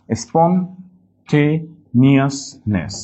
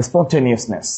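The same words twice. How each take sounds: First: Very slow "স্পন্টেনিয়াসনেস", piece by piece; broken into syllables. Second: Said in the usual way. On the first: Shown as a demonstration. Teacher helping class remember, "স্পন্টেনিয়াসনেস" slowly split. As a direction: leave gaps between the syllables of "স্পন্টেনিয়াসনেস". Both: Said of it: "একটু ভেঙে নিলে".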